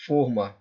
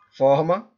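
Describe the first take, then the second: First: "forma" with a closed O, falling at the end. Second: "Forma" with an open O, rising at the end. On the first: Teacher contrasting the two readings of forma, closed O in "forma". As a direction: say "forma" as fôrma, the O rounded and closed. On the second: Teacher contrasting the two readings of forma, open O in "Forma". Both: Shown as a demonstration. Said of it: "A palavra forma".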